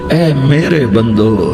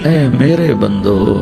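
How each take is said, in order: Both takes have the same delivery.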